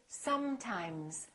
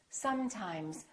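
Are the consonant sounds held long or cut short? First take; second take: long; long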